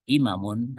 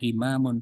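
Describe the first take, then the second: First: The vowel after the m is cut short. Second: The vowel after the m is held long. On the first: The speaker calls it wrong. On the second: The speaker calls it right. "maknya panjang ya panjang"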